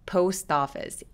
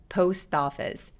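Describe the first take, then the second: First: A tensed t links into office. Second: A tensed t links into office.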